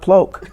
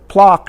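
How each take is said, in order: First: The vowel sounds like the one in oak. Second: The vowel sounds like the one in lock. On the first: The speaker calls it wrong. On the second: The speaker calls it right. "my family's name is"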